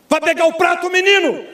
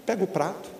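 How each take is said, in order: First: High, loud shouted order; mock yell at a child; parent yelling. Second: Softer, gentle request; the quiet way a parent should ask; soft-spoken. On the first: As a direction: bark it like an angry dad. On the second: Shown as a demonstration. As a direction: say it calmly, no yelling. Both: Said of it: "Não dá pra falar assim".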